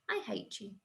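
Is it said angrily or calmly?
calmly. It is said calmly, without anger.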